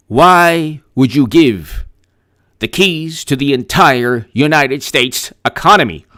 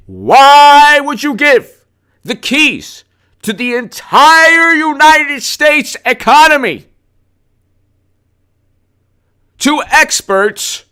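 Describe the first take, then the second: First: Said in the usual way. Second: Much higher, slow, sing-song mockery; mocking voice. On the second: Mocking the experts who run the economy, high and slow. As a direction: drag it out high to sneer at them.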